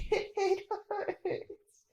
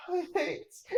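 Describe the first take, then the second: First: A breaking, sobbing cry of pain. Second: Put-on a child whimpering under the rubble; whimpering in pain. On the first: Acted. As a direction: sob it out, crushed and hurting. Trapped child in pain.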